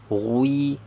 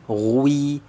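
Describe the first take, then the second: No difference in how they are said.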